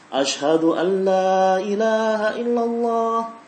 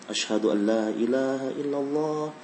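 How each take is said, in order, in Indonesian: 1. Frasa itu diucapkan dengan suara keras dan lantang. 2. Frasa itu diucapkan dengan suara pelan dan rendah. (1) "Kemudian dibaca dengan lantang" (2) "Kemudian dibaca pelan tasyahudnya"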